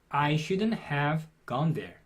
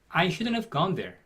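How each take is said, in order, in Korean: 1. 이 문장은 보통 속도로 말했어요. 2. 이 문장은 조금 더 빠르게 말했어요.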